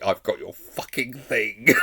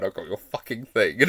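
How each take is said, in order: First: Slow, drawn-out snarled mimic line; imitating snarl. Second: Imitating snarl. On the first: Fan imitating a character's threat line, slow and drawn out. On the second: Fan re-enacting a character's threat line, snarled. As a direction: mimic her threat again with relish. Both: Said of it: "Just the way she says the line".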